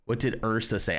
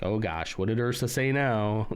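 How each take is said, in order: First: Said in the usual way. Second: Mock exasperated, as if fed up with someone; a touch of weary dread. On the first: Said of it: "I was trying to see what he was replying to". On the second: Shown as a demonstration. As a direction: put mild stink on it, like "not this now". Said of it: "I didn't mean it like that".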